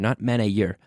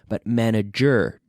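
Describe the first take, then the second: First: The ending does not sound like 'jur'. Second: The ending sounds like 'jur'. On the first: The speaker calls it wrong. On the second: The speaker calls it right. "but manager. Jur"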